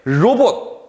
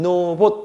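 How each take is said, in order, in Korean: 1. 이 단어는 L 소리로 시작해요. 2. 이 단어는 N 소리로 시작해요. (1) "로봇 이 친구를" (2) "이 두음 법칙을 적용하면 노봇 이렇게 되죠"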